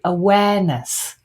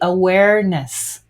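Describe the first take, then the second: First: No R sound is pronounced in the word. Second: An R sound is pronounced in the word. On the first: This is how the English say it. "The English would say awareness without an R sound at all" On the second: This is how Americans say it. "The Americans would say awareness with a R sound"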